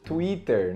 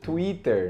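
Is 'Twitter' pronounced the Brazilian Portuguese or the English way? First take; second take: Brazilian Portuguese; Brazilian Portuguese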